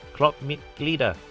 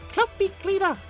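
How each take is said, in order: First: It is said in her normal voice. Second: It is said in an angry childlike voice.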